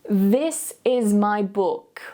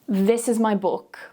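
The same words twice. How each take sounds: First: It is said slowly with exaggerated tongue movement. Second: It is said at a normal conversational speed. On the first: "Repeat slowly and exaggerate that tongue movement" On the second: "Then we're going to say it at a natural speed"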